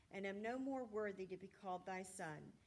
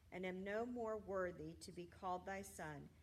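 No difference in how they are said.

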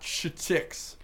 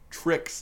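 First: The word starts with a 'ch' sound. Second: The word starts with a 'tr' sound. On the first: The speaker calls it wrong. "you said ch instead of tr" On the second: The speaker calls it right. "Tricks, not ch-ticks"

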